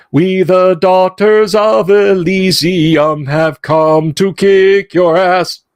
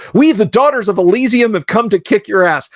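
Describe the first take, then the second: First: Slow, high, sustained mock-choral singing; sung, belt it like a grand chorus in the car. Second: High-pitched spoken declaration, not sung; coworker's translation. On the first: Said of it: "we would belt out at top volume". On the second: Retold or imitated. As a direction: proclaim it like a perky coworker translating. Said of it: "she says".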